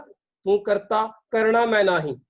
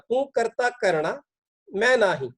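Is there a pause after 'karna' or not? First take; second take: no pause; pause. First: 'Karna' runs straight into 'main nahi'. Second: 'Karna' joins 'karta', then a pause follows.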